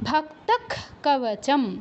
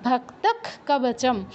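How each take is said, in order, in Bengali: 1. প্রথম শব্দটি 'ক' ধ্বনিতে শেষ হয়। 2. প্রথম শব্দটি 'ক' ধ্বনিতে শেষ হয়।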